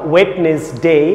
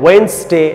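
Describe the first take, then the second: First: The word is said in three syllables. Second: The word is said in two syllables. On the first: The speaker calls it wrong. "না ওয়েটনেসডে" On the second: The speaker calls it right. "ওয়েনসডে না"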